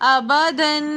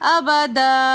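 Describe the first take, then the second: First: The word ends with a nasal n sound. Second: The word ends with a long a vowel. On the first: The reading continues without stopping. "दो ज़बर की तनवीन को हमने गुन्ने के साथ पढ़ना है" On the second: The reading stops at this word. "वक़फ़न"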